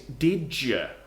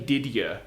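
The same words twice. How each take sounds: First: The d and y merge into a j sound. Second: The d and y sounds stay separate. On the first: The speaker calls it right. "What we say is did you. ... it becomes a j" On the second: The speaker calls it wrong. "we don't actually say did you"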